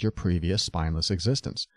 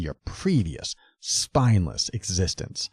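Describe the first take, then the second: First: It is read with little intonation, fairly flat. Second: It is read with exaggerated, dramatic intonation. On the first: The words are taken without assumed emotion. The speaker calls it right. "try not to inflect too much" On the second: The writer sounds hostile and contemptuous. The speaker calls it wrong. "in an exaggerated inflection"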